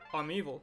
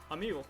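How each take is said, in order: First: It is said in a put-on corporate voice. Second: It is said in a plain natural voice.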